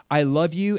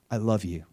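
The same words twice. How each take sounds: First: Higher and louder, rising at the end; pleading. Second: Tender. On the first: Jesus proposing to the people who hated him, pleading and rising. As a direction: lift it like an urgent plea. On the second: Jesus speaking from the cross. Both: Retold or imitated.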